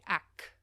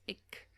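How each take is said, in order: First: The vowel sounds like 'a', Cape dialect. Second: The vowel sounds like 'i', standard Afrikaans.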